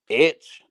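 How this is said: The letter is said the Protestant way.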